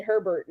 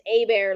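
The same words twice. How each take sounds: First: Herbert, with a sounded H and final T; wrong pronunciation. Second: A Bear, the letter A then the animal bear; corrected pronunciation. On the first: Retold or imitated. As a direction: say Herbert as spelled, HER-bert. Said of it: "I think Remy said Herbert". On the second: Shown as a demonstration. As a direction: teach A Bear as two clear words, no H. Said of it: "like A, the letter A".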